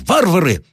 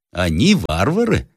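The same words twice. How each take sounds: First: High exclamation, falling at the end; enraged high cry; angry shout. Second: Slow, questioning retort in an even pitch; unhurried sceptical objection; objecting. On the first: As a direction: hurl it out as an insult, pitch up. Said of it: "закричал генерал". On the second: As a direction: query it with measured disagreement. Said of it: "возразил один офицер". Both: A narrator's reading.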